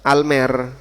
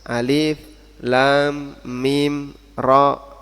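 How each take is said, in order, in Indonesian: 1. Huruf-hurufnya digabung menjadi satu kata pendek. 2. Setiap nama huruf dibaca terpisah. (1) "jangan dibaca almer" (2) "dia dibaca secara terpisah"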